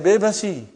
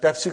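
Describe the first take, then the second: First: It begins with b and has three syllables. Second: It begins with p and has two syllables. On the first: This is how Indian speakers say it. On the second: This is the original name of the drink.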